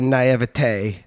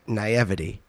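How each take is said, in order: First: The word is said the fancier, official way. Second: The word is said the plain, everyday way. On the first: "it's supposed to be naivete" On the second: "So I say naivety"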